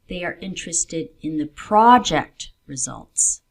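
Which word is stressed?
project. The word 'project' carries extra stress. It is these results, not other results, that matter. "there are other results they are looking at"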